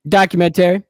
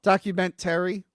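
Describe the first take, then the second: First: Documentary said DOCK-yuh-men-tree, rising; Documentary in the usual way, a touch louder; documentary pronunciation. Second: Documentary said DOCK-yoo-men-tree; Documentary with a Rochester vowel; documentary pronunciation. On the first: Shown as a demonstration. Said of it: "God damn it. Everyone fucking yells at me". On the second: Retold or imitated. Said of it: "You New Yorkers".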